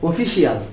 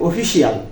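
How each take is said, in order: The two takes are said the same way.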